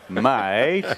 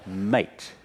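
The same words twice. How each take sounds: First: Mate said louder, higher, with a rising tune; Mate as a loaded warning; menacing mate. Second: Mate said short and easy through a laugh; Mate as friendly greeting. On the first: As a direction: lean on Mate as a veiled threat. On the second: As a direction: toss off Mate with a chuckle. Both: Shown as a demonstration. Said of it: "nineteen intonations in the Labor Party".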